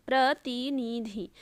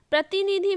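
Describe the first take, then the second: First: प्रतिनिधि slowly, "pra-ti-ni-dhi"; slow, separated syllables in प्रतिनिधि; sounded out. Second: Said in the usual way. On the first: Shown as a demonstration. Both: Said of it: "सारे जो हैं छोटी की मात्रा".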